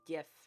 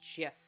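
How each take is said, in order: First: It begins with a hard G sound. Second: It begins with a soft J sound. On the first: The speaker calls it right. "I do say GIF" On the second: The speaker calls it wrong. "not GIF"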